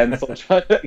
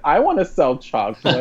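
First: Said in the usual way. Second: Higher-pitched mock eager quote; Faith. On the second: Host imitating Faith wanting to join in, mock pleading. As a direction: lightly play a left-out girl, voice lifted. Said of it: "Faith's like".

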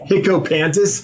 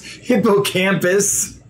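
First: Laughing through "hippocampus" after tripping on it; stumbling over the word. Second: "hippocampus" said very slowly, each syllable placed, rising at the end; careful correction. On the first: Real, not acted. Reading a viewer's name aloud, trips and laughs. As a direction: blurts "hippocampus" with a laugh, still unsure of it. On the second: Shown as a demonstration. Correcting his misreading of a viewer's name, slow and careful. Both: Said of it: "Thanks for putting up with my misreadings".

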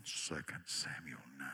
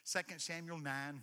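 First: Very low rumbling voice; deep voice. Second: Said in the usual way. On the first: Shown as a demonstration. Preacher showing off a deep voice. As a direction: drop way down low and slow. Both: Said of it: "I have several voices".

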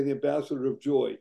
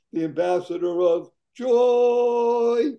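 First: Said in the usual way. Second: "the ambassador of joy" high, loud and slow, "joy" rising; emphatic joy. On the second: Shown as a demonstration. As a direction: proclaim "joy" slowly and loudly, rising at the end. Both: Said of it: "Notice I didn't say the ambassador of joy".

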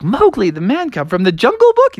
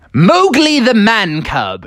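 First: High-pitched, disbelieving echo; baffled friends double-checking; incredulous question. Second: Big high-pitched, drawn-out name reveal; slow, proud proclamation in a raised voice; triumphant announcement. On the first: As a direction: query an absurd pick in a raised voice. Friends question the odd pick. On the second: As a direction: announce the star pick grandly, stretching it out. Froggy's grand pick reveal. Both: Acted.

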